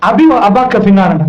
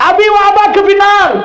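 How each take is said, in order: First: Quoting the Prophet in a low, slow voice; preacher quotes the hadith to the congregation, low and slow; low, slow Arabic recitation. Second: Preacher repeats the hadith to drive it home, slow and emphatic; emphatic repetition. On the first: Low, slow recitation. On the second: Slow, emphatic repetition. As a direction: repeat it slowly, with a little more weight on வ. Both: Shown as a demonstration.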